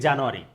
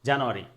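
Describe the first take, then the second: No difference in how they are said.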